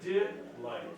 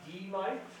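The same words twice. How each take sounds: First: The first syllable sounds like 'dih'. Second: The first syllable sounds like 'dee'. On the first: The speaker calls it right. "But delight" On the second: The speaker calls it wrong. "It is not delight, that means to remove the light"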